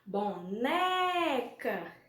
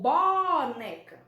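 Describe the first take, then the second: First: The stress is on the middle syllable. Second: The stress is not on the middle syllable. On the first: The speaker calls it right. "o né se torna um acento tônico" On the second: The speaker calls it wrong. "Como é que a gente fala? Boneca ou boneca"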